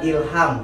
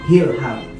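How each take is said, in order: First: The word begins directly with a vowel sound. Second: The word begins with an audible h sound. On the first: The speaker calls it wrong. "kebanyakan orang ilham gak pakai H" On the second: The speaker calls it right. "Harusnya? Hilham"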